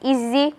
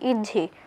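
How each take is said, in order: First: The doubled consonant is a 'z' sound. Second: The doubled consonant is a 'jh' sound. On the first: "জেড দিয়ে পড়ি" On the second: "বাংলায় পড়ি"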